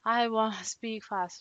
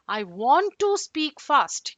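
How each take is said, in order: First: The words are slurred lazily together. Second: Each word is fully and clearly completed. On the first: The speaker calls it wrong. "don't kind of speak like this" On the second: The speaker calls it right. "You can complete each word"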